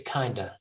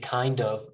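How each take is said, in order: First: The two words blend into one reduced word. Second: The two words are said fully and separately. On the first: The speaker calls it right. "we just say kinda" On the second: The speaker calls it wrong. "We don't say kind of"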